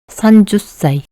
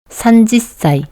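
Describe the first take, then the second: First: The second syllable is said as 'ju'. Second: The second syllable is said as 'ji'. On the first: "또는 산주사이" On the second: "산주사이가 아니라 산지사이 또는 산주사이"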